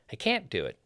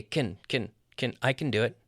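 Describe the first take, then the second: First: CAN'T as the main beat, then falling; stress on CAN'T. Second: CAN as a short weak "kn"; reduced CAN. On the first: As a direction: hit CAN'T. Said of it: "So we stress the negative". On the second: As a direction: shrink CAN and move on to DO. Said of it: "they're gonna say". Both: Shown as a demonstration.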